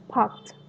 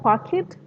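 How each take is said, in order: First: The ending is a plain t sound. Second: The ending is an extra syllable. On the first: The speaker calls it right. "but it's parked. So t, t sound" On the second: The speaker calls it wrong. "It's not park it"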